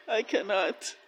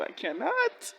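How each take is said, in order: First: Said in the usual way. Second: High squeal of I cannot; overwhelmed. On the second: Real, not acted. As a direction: cannot rising high in disbelief. Overwhelmed reaction to the show.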